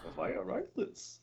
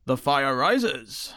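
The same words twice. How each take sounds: First: Slow and much softer; whispered Bane line. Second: Very slow, drawn-out Bane line. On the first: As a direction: breathe the line slowly, hushed. Echoing quote softly. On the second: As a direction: intone it slowly like Bane. Quoting Bane slowly. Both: Pretend.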